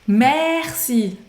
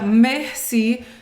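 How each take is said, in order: First: The first vowel is very open and wide. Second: The first vowel is closed and narrow. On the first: The speaker calls it right. "O som, ele é bem abertão" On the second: The speaker calls it wrong. "Tem gente que pronuncia merci, não é merci"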